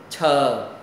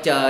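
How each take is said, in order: First: The first sound has a strong puff of air. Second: The first sound has no puff of air. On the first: The speaker calls it right. "phải có hơi bật ra" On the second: The speaker calls it wrong. "không phải chờ nha"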